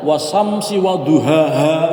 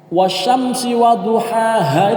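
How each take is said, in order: First: The first word has a plain s sound. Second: The first word has a sh sound. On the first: The speaker calls it wrong. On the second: The speaker calls it right.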